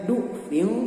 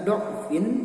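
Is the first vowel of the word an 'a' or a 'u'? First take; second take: u; a. First: The first vowel is a rounded 'u' sound. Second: The first vowel is an open 'a' sound. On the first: This is one traditional reading of the word. "Imam Hafs membacanya dhammah" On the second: This is another traditional reading of the word. "dibacanya dodnya dengan fathah"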